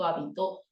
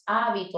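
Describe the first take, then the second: First: The stress is on the last syllable. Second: The stress is on the first syllable.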